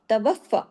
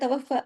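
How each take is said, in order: First: The f sound is doubled and held firmly. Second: The f sound is said loosely, not doubled. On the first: The speaker calls it right. "डबल होना चाहिए, फ़ा की आवाज़ डबल और सख्ती से" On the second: The speaker calls it wrong. "ढीला-ढाला तवफ़्फ़ा ऐसे नहीं"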